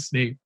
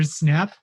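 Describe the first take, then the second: First: The name rhymes with the word 'cape'. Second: The name rhymes with the word 'cap'. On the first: The speaker calls it right. "his name is definitely Snape" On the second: The speaker calls it wrong. "I used to say Professor Snap"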